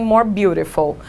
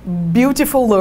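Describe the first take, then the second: First: Said in the usual way. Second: "Beautiful" with a drawn-out "-ler" stuck on the end; mock wrong form, "Beautiful" ending in "-fuller"; tacked-on R ending. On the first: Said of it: "botar um more na frente deles". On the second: Shown as a demonstration. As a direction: stretch a clumsy extra R after "Beautiful". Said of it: "com R no final".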